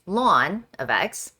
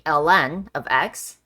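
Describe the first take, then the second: First: The letters are said together as one word. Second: The letters L and N are said separately. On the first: "or you can call it ln of x" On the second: "You can say the individual letters"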